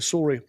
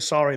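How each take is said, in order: First: It is said in a Canadian accent. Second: It is said in a non-Canadian accent.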